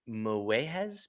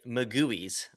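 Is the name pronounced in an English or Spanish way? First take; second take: Spanish; English. First: The name is said with Spanish sounds. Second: The name is said with English sounds.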